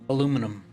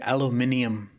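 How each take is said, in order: First: It is said without the extra i syllable. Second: It is said with the extra i syllable.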